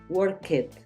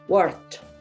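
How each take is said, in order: First: The ending is a separate 'ed' syllable. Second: The ending is a single 't' sound. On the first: The speaker calls it wrong. "No es indicado" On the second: The speaker calls it right. "como una T"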